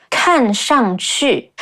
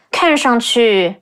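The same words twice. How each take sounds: First: 看上去 slowly, every character stressed separately; stress on each character. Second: 看上去 with 上 almost toneless and 去 drawn out; light middle, long ending. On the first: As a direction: punch each falling tone in 看上去. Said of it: "put extra stress on each character". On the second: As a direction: glide over 上, lengthen the 去 in 看上去. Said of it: "make the character in the middle almost toneless". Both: Shown as a demonstration.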